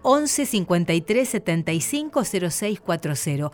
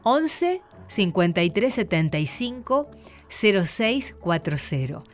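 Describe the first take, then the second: First: The number is said fast. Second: The number is said slowly.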